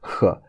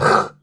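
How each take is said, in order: First: The kh sound is a softer velar sound. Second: The kh sound is a harsh, Arabic-like friction. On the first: The speaker calls it right. "more a, a vela sound" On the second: The speaker calls it wrong. "it's not a kh, like in Arabic"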